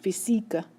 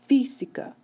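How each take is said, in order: First: The stress is on the second syllable. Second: The stress is on the first syllable. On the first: The speaker calls it wrong. "it's not pronounced física" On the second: The speaker calls it right. "you can hear the stress is coming over here"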